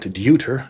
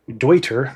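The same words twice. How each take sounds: First: The name is pronounced the English way. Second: The name is pronounced the German way. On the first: The speaker calls it wrong. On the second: The speaker calls it right. "It's it is Deuter"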